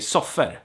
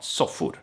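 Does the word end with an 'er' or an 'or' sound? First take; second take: er; or. First: The ending is pronounced like 'er'. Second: The ending is pronounced like 'or'. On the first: "we still pronounce pronounce or as er a lot of times. So I would say soffer" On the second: "not soffor"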